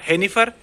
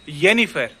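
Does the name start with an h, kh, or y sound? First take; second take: h; y. First: It begins with a breathy h sound. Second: It begins with a y sound. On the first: The speaker calls it wrong. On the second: The speaker calls it right.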